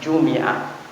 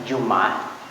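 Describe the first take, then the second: First: An i vowel follows the m sound. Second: No vowel follows the m sound. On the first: It means Friday only. "boleh dikasrahkan bunyinya Jumi'ah" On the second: It can mean Friday or a week. "Boleh disukunkan bunyinya Jum'ah"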